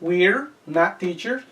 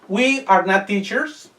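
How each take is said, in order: First: The pronoun and verb are joined as we're. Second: All words are said in full, uncontracted.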